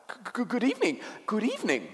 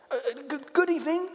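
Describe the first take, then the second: First: High, stammering faun greeting; nervous creature's repeated greeting; flustered faun. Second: Put-on high, hesitant girl's greeting; timid little girl. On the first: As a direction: stutter out a flustered, high-pitched hello. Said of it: "said the faun". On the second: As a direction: stammer a quick, high hello. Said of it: "said Lucy". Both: A narrator's reading.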